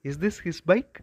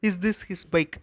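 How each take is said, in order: First: The voice rises at the end. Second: The voice stays flat or falls at the end. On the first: The speaker calls it right. "Rising tone வரணும்" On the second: The speaker calls it wrong. "அப்படின்னு சொல்லக்கூடாது"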